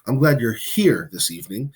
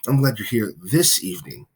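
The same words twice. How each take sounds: First: The word here carries the main stress. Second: The word this carries the main stress. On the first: The person is physically present with the speaker. "You're glad that the person is here, literally with you" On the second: The person came on this particular day. "now you're you're happy that they are there on this particular day"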